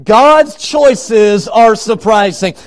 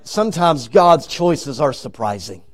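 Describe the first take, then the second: First: Slow, stretched, forceful proclamation; emphatic preaching. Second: Said in the usual way. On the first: Real, not acted. Preacher driving the point home to the congregation, emphatic. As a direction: proclaim it word by weighty word.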